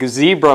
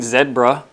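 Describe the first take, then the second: First: It is said in an American way. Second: It is said in a British way. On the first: The speaker calls it right. "like zebra" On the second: The speaker calls it wrong. "It ain't zebra. I don't get why Brits pronounce that"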